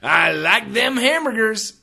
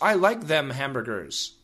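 First: It is said in an excited, silly voice. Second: It is said in a plain, flat voice. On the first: The speaker calls it right. "You should say it like this. ... Make it exciting. Make it funny. Make it silly" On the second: The speaker calls it wrong. "Do not say, ... No, that's absolutely wrong"

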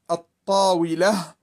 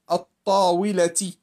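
First: The word ends with an h sound. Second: The word ends with a t sound. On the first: The word ends the phrase. "when we stop, we say it as a ha" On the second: The word is joined to the next word. "When we connect it, we say الطاولة"

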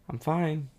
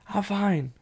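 First: It is said with a resentful, sarcastic edge. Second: It is shouted loudly in an angry tone. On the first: The speaker hints at hidden anger. "Go to passive aggressive" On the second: The speaker attacks the other person. "Aggressive, ... A real shout"

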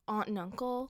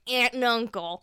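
First: The word 'aunt' is said with a broad 'ah' vowel, like 'ahnt'. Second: The word 'aunt' is said with a flat 'a' vowel, like 'ant'. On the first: The speaker calls it wrong. "We don't say aunt in America" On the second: The speaker calls it right. "Okay, sorry"

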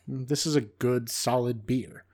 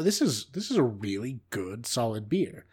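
First: Said in a flat, let-down tone. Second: Said with genuine, pleased enthusiasm. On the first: The beer falls short of the hype. "I say basically the same words, but with very different intonation" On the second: The beer is better than expected. "I'd have drank it and probably been like"

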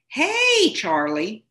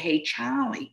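First: Charlie is said with the R pronounced. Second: Charlie is said Philadelphia-style, R dropped.

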